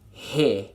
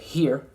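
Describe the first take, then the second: First: The R is dropped, ending in uh. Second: The R is sounded as a clear er. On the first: The speaker calls it right. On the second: The speaker calls it wrong.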